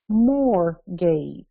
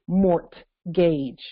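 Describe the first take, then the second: First: No t sound is pronounced in the middle. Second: A t sound is pronounced in the middle. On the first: This follows the way the word was originally pronounced. "They pronounce it the way it was pronounced by us" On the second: This follows the way the word is spelled. "they don't even pronounce it mort gauge, which is the way they spell it"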